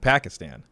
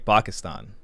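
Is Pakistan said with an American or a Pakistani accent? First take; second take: American; Pakistani. First: Pakistan is said with an American pronunciation. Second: Pakistan is said with a Pakistani pronunciation. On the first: The speaker is talking with people at work. "If I'm talking to someone at the child support agency where I used to work, I'd say" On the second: The speaker is talking with family. "if I'm talking to my dad, I'll say"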